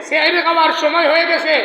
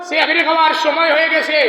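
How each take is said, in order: No difference in how they are said.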